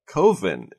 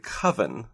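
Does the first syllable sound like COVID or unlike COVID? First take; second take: like COVID; unlike COVID. First: The first syllable sounds like COVID. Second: The first syllable does not sound like COVID. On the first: The speaker calls it wrong. "I pronounce it like coven" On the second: The speaker calls it right. "most people would say that a gathering of witches is a coven, and I know that that's how it's pronounced"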